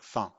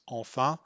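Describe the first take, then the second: First: Only the final syllable of the word is heard. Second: Both syllables of the word are fully pronounced. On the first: "It just sounds like fin" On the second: "enfin often doesn't sound like enfin"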